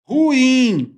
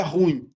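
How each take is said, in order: First: "ruim" high, in two syllables, ru-IM; corrected "ruim", split with stressed I. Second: "ruim" low, run together as RÚIN; wrong one-syllable stress. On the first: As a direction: stretch the stressed ending of "ruim". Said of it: "Ela é uma palavra oxítona". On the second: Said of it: "não é ruim". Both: Shown as a demonstration.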